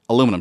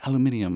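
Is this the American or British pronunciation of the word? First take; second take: American; British. First: It is said the American way, four syllables. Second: It is said the British way, five syllables. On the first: "we talk about this like it's aluminum" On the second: "She's like, no, it's aluminium"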